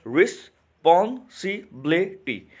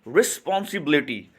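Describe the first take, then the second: First: रिस्पॉन्सिबिलिटी stretched slowly, re-spon-si-bi-li-ty; slow syllable demo. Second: Said in the usual way. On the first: Shown as a demonstration. To students, teacher sounding out syllables slowly. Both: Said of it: "अब यहाँ पे देखिए".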